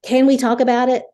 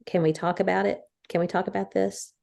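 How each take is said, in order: First: Much higher and louder, sharp demand; harsh demand. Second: Gentle ask. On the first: Wife showing the harsh way to ask to talk. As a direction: snap the question out in a harsh tone. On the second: Wife showing the kind way to ask to talk. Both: Shown as a demonstration. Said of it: "Or you can say".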